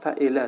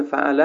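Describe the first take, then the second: First: فعله as "fa'ela", middle vowel e instead of a; deliberate vowel slip, "fa'ela" for فعله; wrong middle vowel. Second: Said in the usual way. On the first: Shown as a demonstration. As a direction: say فعله with an e after the ayn. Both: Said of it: "هیئتش رو غلط تلفظ کرده".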